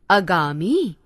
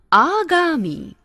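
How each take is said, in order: First: आगामी said with a short "ə" at the start; wrong pronunciation. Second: आगामी said slowly with a long "aa" at the start; correct pronunciation. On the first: Teacher showing students the mistaken form, with a short first vowel. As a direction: clip the start of आगामी to ə-gami. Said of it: "अशुद्ध". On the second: Teacher modelling the right form slowly, with a long first vowel. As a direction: stretch the opening of आगामी to a clear aa. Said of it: "शुद्ध". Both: Shown as a demonstration.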